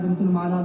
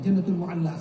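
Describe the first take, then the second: First: The popular wrong "المعلیٰ", like "ma-laa"; "المعلیٰ" without the u-a break or doubled l; mispronounced Mu'alla. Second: Careful "mu-alla" in "المعلیٰ"; correct Mu'alla. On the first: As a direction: say "المعلیٰ" as al-Ma'laa, single l. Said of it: "لوگ بولتے نہیں". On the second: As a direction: say "المعلیٰ" as al-Mu-'al-laa. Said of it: "صحیح تلفظ کیا ہے؟". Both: Shown as a demonstration.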